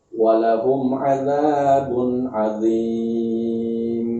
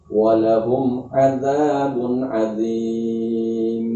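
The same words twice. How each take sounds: Both takes have the same delivery.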